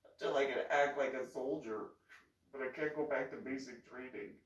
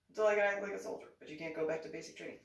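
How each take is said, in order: First: Said in the usual way. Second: Rattled off fast, much louder; fast loud repeat of the phrase. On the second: Shown as a demonstration. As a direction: fire it off quickly and loudly, first words loudest. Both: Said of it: "I just said that".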